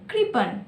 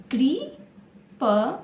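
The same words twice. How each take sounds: First: Said in the usual way. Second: coupon stretched slowly, part by part; slowed to syllables. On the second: Shown as a demonstration. Teacher sounding out a word for pupils, slowly. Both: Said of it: "तीन अक्षर में क्या है?".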